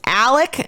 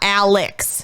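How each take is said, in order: First: The name ends with a plain k sound. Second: The name ends with a ks sound. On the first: The speaker calls it right. "The father's name is Alec" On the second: The speaker calls it wrong. "not Alex"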